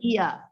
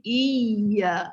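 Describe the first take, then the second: First: The y sound is short and single. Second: The y sound is held and doubled. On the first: The speaker calls it wrong. "kita tak boleh baca iya. Tak ada sabdu. Ah, salah" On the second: The speaker calls it right. "kena macam tekan... Jadi iya. Ha, baru betul"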